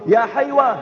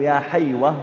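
First: High-pitched retold call; mild imitation of a mother's yell; mock shouting. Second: Said in the usual way. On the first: Mother calling her son from the mosque window, mild mock yell. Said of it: "ثم تصرخ به تقول". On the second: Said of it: "فتقول له".

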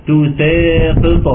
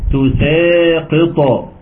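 First: تساقط with light س and echoed ق; تساقط said with a light س and a bouncing ق; correct take. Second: تساقط with emphatic sad; تساقط said with a heavy ص; wrong take. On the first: Teacher giving the right reading of تساقط, light س. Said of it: "لا، تساقط". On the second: Teacher showing the wrong reading of تساقط, heavy emphatic ص. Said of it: "تساقط بالصاد". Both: Shown as a demonstration.

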